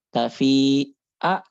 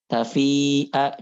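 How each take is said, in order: First: TAFI'A slow, a gap, then a forced 'a; exaggerated hamzah. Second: TAFI'A with long "fii" and a clean short 'a; measured hamzah. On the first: Teacher warns against this reading, overdone hamzah in TAFI'A. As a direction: break "tafi'a" before an overdone final vowel. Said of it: "jangan tafi'a gitu". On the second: Teacher models the proper way, measured hamzah in TAFI'A. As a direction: join "Tafi'a" with an unforced catch. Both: Shown as a demonstration.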